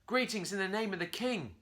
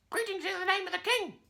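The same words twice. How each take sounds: First: Higher, louder formal monkey greeting. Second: Very high squawky parrot parroting. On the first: Curly formally greets the parrot, loud and proud. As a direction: greet the parrot like a royal herald. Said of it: "Curly said". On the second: Parrot mockingly repeats Curly's greeting, very high and squawky. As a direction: mimic it back like a parrot. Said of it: "the parrot replied". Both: A narrator's reading.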